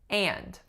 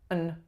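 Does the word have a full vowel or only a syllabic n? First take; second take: full vowel; syllabic n. First: It has a full tense nasalized a vowel. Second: The vowel drops, leaving only a syllabic n. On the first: "My vowel is a tense nasalized a" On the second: "I'm saying what's called a syllabic N"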